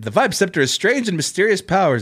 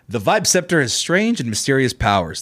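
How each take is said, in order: First: It is read in a plain, ordinary voice. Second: It is read in a dramatic, heroic narrator voice.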